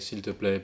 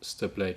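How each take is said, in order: First: Every syllable of the phrase is pronounced fully. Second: The phrase is run together with sounds dropped. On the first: The speaker calls it wrong. "We don't say" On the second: The speaker calls it right. "generally in the spoken language"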